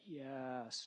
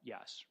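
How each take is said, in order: First: The word is drawn out long. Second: The word is said short and plain.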